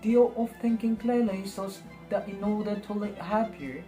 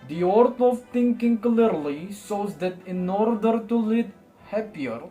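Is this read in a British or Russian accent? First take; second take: British; Russian. First: It is read in a British accent. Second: It is read in a Russian accent. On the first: "membaca buku ini menggunakan British accent" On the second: "vibe dari pengucapan orang Rusia"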